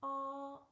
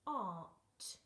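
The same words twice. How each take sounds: First: Art called out high and loud; modelling the word. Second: Said in the usual way. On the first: Shown as a demonstration. Teacher modelling the word Art for children to repeat. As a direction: model Art clearly for the class. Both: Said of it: "Let's read it together".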